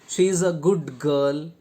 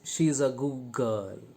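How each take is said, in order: First: The d in 'good' is clearly pronounced. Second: The d in 'good' becomes a g sound. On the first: The speaker calls it wrong. "is Indian pronunciation" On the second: The speaker calls it right. "in a connected speech, the native speaker will speak or pronounce it as"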